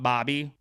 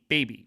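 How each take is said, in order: First: The first vowel sounds like 'bah'. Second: The first vowel sounds like 'bay'. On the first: The speaker calls it wrong. "not Bobby" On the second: The speaker calls it right.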